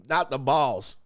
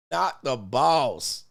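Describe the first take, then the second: First: Said in the usual way. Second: Drawn out, slow and heavy; slow for effect. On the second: Shown as a demonstration. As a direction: stretch every word slowly.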